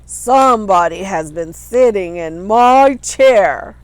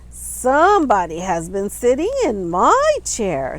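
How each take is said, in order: First: It is said in a great big voice. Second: It is said in a middle-sized voice.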